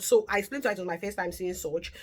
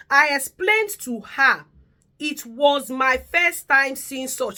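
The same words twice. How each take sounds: First: Said in the usual way. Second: Slow, louder, each word weighed; slow emphatic read. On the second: Shown as a demonstration. Reading the carer's message to viewers, slow and louder. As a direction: read it out slowly and heavily, as if dictating.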